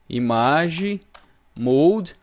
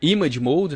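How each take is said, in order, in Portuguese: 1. É lido com pronúncia de estilo português. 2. É dito com pronúncia inglesa.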